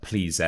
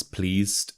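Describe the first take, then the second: First: "pleased" in two syllables, plea-zed; wrong "pleased". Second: "pleased" as one syllable, pleezt; "pleased" ending in st. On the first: Teacher shows learners the mistake, "pleased" as plea-zed. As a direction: pronounce the -ed of "pleased" as its own syllable. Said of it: "It's not pleased". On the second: Teacher corrects learners, "pleased" as one syllable ending in st. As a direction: end "pleased" on a crisp st sound. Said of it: "you need the st sound at the end". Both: Shown as a demonstration.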